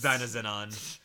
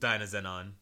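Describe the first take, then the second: First: The S sounds in the name are pronounced. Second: The S sounds in the name are silent. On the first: The speaker calls it wrong. "So you would think that it's" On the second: The speaker calls it right. "but it's actually just"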